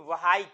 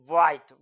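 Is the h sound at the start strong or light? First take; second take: strong; light. First: The h sound at the start is strong. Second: The h sound at the start is light. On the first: The speaker calls it wrong. "व्हाइट ऐसे नहीं पढ़ते" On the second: The speaker calls it right. "ये ह जो है हल्का से ये आता है"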